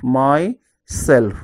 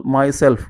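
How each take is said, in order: First: "myself" in two separate beats, my - self; split into syllables. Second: Said in the usual way. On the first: Shown as a demonstration. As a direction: break "myself" slowly as my, then self. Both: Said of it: "divide the word into syllables".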